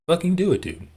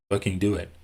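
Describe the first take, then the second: First: Higher and louder, a sudden yelled dare; exasperated shout. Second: Said in the usual way. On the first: Real, not acted. Streamer daring a rival to just sue, shouting. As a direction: bark the dare like you're fed up.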